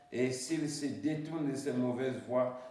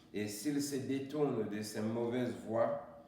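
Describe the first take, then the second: No difference in how they are said.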